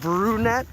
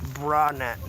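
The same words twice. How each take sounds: First: The first syllable sounds like 'brew'. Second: The first syllable sounds like 'bra'.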